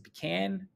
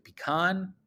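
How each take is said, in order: First: "pecan" ending like the word "can"; pecan with a short A. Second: "pecan" ending in a broad "kahn". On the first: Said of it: "Is it pecan or is it pecan". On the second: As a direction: say "pecan" as pih-KAHN, open AH. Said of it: "or is it pecan". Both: Shown as a demonstration.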